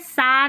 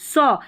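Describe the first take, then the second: First: The vowel is an open 'ah' sound. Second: The vowel is a rounded 'aw' sound. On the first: The speaker calls it wrong. "सा नहीं पढ़ना है" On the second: The speaker calls it right. "इसको सौ पढ़ना है"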